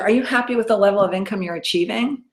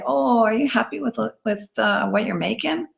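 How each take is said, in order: First: It is said confidently, without hesitation. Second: It is said hesitantly, with stumbles.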